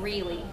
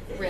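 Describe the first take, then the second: First: The vowel sounds like a tense 'ee'. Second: The vowel sounds like a lax 'ih'. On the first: "Mine is more of an E sound" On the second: "And yours was more of an it"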